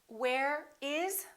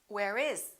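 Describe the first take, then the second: First: The words are said separately, not linked. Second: The words are linked smoothly together.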